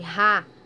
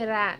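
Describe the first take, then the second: First: The R is a strong, heavy sound. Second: The R is a soft, light sound. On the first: "teve um som mais forte, como no rato" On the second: "Ele vai ter um som mais suave"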